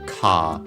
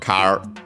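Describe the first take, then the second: First: The word ends in a long vowel without R. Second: The word ends with an audible R sound.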